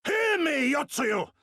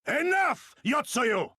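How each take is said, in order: First: High, loud demand to be heard; ringing shouted challenge; commanding shout. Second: High, loud cry to halt her; furious shout of her name; commanding shout. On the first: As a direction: bellow to seize her attention. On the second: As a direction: call her out across the square. Confronts the viceroy, shouting her name. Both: Acted.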